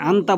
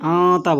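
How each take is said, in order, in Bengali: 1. 'n' হলো একটি সাধারণ, স্পষ্ট 'n' ধ্বনি। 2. 'n' অনুনাসিক এবং গুন্না হিসেবে টেনে উচ্চারিত হয়। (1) "এখানে আন্তা বলবেন না" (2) "এখানে নুন গুণ হবে"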